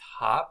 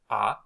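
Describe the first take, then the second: First: The vowel starts with a breathy h-sound. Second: The vowel starts with no h-sound. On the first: The speaker calls it wrong. "this is read not as ha" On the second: The speaker calls it right. "but just a"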